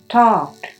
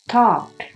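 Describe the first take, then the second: No difference in how they are said.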